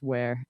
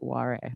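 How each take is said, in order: First: The name is read like an English word. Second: The name is read with Japanese-style syllables. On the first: The speaker calls it right. "her last name is Ware" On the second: The speaker calls it wrong. "I was also taking Japanese at the same time, so I like read it that way"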